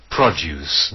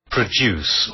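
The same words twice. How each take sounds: First: "Produce" said PROD-yoos, stress on the first syllable; "Produce" as the British noun, PRODD-yooce. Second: "Produce" said pruh-DOOSE, stress on the second syllable; American "Produce" with a plain oo, stress at the end; "Produce" as the American verb, pruh-DOOS. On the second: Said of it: "also American produce". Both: Shown as a demonstration.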